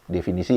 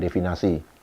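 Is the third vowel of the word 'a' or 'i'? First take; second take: i; a. First: The third vowel is an 'i' sound. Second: The third vowel is an 'a' sound. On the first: The speaker calls it right. "Definisi ya" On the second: The speaker calls it wrong. "bukan definasi"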